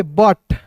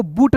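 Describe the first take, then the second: First: बट with a short "uh" vowel; correct pronunciation. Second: बूट with an "oo" vowel; wrong pronunciation. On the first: Teacher giving learners the reading of BUT, correct pronunciation. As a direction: read BUT as बट, "butt". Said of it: "इसे पढ़ेंगे बट". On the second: Teacher warning learners off a misreading, wrong pronunciation. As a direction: misread BUT as बूट, like "boot". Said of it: "बूट नहीं पढ़ेंगे". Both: Shown as a demonstration.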